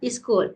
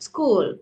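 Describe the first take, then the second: First: An extra vowel is added before the s sound. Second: The word starts directly with the s sound. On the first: The speaker calls it wrong. "ஒரு பிரிச்சு சொல்றீங்க is school no" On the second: The speaker calls it right. "சரி சொல்லணும் school"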